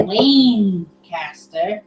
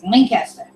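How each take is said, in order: First: Lancaster drawn out slowly, long "Laaane" then caster; wrong pronunciation. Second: Lancaster quick and run together, short "Lank"; corrected pronunciation. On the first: Reading a correction of Lancaster, wrong stretched-out version. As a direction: stretch Lancaster into two slow separate parts. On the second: Reading the correction, Lancaster said compactly the right way. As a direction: say Lancaster as one quick word. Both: Shown as a demonstration. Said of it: "Not Lancaster. It's Lancaster".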